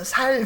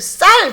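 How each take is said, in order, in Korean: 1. 이 단어는 예사 s 소리로 시작해요. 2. 이 단어는 된소리 s 소리로 시작해요. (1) "경상도 사람들이 ... 살 그래요" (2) "쌀 그러면"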